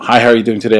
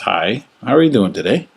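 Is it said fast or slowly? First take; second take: fast; slowly. First: It is said fast. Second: It is said slowly.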